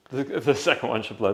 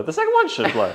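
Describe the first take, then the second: First: Said in the usual way. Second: Louder, higher insistent repeat; emphatic. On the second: Real, not acted. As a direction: push it with excitement.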